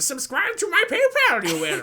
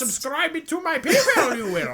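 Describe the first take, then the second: First: It is said in a Yoda voice. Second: It is said with a Russian accent.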